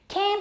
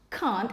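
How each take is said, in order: First: It is said with an American accent. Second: It is said with a British accent. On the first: "Can't is American English" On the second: "can't is British"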